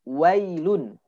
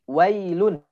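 The two takes are said the same way.

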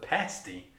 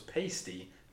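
First: The word has the pronunciation meaning a meat pie. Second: The word has the pronunciation of an unrelated word. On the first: It names a meat pie. The speaker calls it right. "but pasty" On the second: It names a totally different, unrelated thing. The speaker calls it wrong. "I always thought this was pasty"

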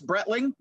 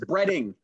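First: The name has an L sound before the ending. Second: The name has no L sound before the ending. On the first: The speaker calls it wrong. "I want to put an L in there all the time" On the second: The speaker calls it right. "It's Bretting"

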